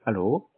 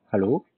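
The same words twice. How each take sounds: The two takes are said the same way.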